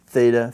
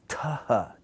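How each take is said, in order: First: It starts with a th sound. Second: It starts with a t plus a puff of air. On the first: This is the traditional learned pronunciation. The speaker calls it wrong. "this is traditionally how we learn they're pronounced" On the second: This is how it was pronounced in New Testament times. The speaker calls it right. "an unvoiced tau with aspiration"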